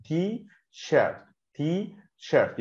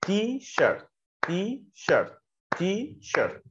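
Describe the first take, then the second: First: "تي شيرت" slow, "تي" and "شيرت" as two separate beats; split into syllables. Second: "تي شيرت" beat out as two claps, "تي" and "شيرت", higher; clapped syllables. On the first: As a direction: tap out "تي" then "شيرت". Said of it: "دقنك كده بتلمس مرتين". ("تي شيرت" على مقطعين ببطء) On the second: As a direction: clap out "تي"–"شيرت" in rhythm. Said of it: "او بالسقفه". ("تي شيرت" مقطعين مع سقفتين) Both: Shown as a demonstration.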